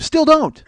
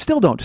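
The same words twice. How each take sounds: First: Much higher, louder comic squeak; mock squeal. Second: Said in the usual way. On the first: Podcaster repeating his joke, in a louder, much higher comic yelp. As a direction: yelp it for the laugh.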